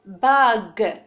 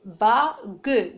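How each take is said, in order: First: Said in the usual way. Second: "bague" broken into ba-gue; two-syllable "bague", ba, then gue; split into syllables. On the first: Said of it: "Je vais les prononcer". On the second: Shown as a demonstration. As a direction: say "bague" in two separate beats, sounding the final e. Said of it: "je vais les découper".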